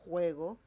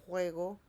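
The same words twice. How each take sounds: Both takes have the same delivery.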